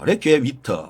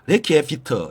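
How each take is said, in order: First: The second word begins with a W sound. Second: The second word begins with a V sound. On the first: This is how it was said in the past. "옛날에는 위트라고 했습니다" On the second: This is how it is said today. "오늘날 발음은 비트라고 합니다"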